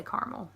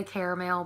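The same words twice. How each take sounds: First: "caramel" said "car-mel"; two-syllable caramel. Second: "caramel" said "care-a-mel"; three-syllable caramel. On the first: Shown as a demonstration. Vlogger giving her own way, car-mel. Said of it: "but I say caramel". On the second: Retold or imitated. Imitating how some people say it, care-a-mel. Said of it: "I know some people say caramel".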